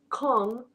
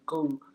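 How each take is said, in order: First: The word is not said as 'gung'. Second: The word is said as 'gung'. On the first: The speaker calls it wrong. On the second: The speaker calls it right.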